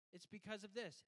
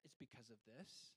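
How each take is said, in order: First: Said in the usual way. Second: "this" rises like a question; child echoing the parent, rising at the end; child's echo as question. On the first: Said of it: "give your answer back with a question mark". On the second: Shown as a demonstration. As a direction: mirror it back softly as a question. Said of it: "with a question mark".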